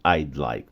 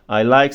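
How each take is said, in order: First: The d sound before like is clearly pronounced. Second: The d sound before like is silent. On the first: The speaker calls it wrong. "a gente não fala assim" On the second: The speaker calls it right. "esse apóstrofo D vai ficar mudo"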